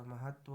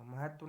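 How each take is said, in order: First: महत्व with a held, doubled 't'; correct form. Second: महत्व with a single light 't'; wrong form. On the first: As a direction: dwell on the 't' of महत्व before 'va'. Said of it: "होता है". (महत्व, दोहरा 'त्त') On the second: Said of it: "नहीं होता". (महत्व, एक 'त') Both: Shown as a demonstration.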